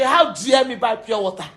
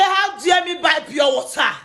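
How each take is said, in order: First: Said in the usual way. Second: Imitating her shouted outrage; mock shout. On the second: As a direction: throw her words back at her with a shout. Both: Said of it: "You say".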